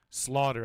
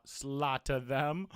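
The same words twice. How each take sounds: First: Slaughter said cleanly with a plain t; clear slaughter. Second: Slaughter said with a lisp, th for t. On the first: Shown as a demonstration. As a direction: say slaughter crisply, no lisp. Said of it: "I tried to say slaughter". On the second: Real, not acted. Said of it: "I had a lisp there".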